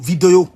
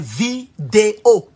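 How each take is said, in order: First: The middle vowel is not a clear 'é'. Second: The middle vowel is a clear 'é'. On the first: It carries a regional accent. The speaker calls it wrong. "on ne dit pas vidéo, vidéo" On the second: It is the standard way to say it. The speaker calls it right. "C'est vidéo"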